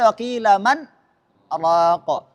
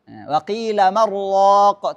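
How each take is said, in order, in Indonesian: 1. Ada jeda singkat sebelum kata terakhir. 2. Kata-katanya disambung tanpa jeda. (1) "tidak boleh" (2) "tidak pakai sakta di sini"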